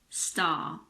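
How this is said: It is said in a British accent. "but in British English"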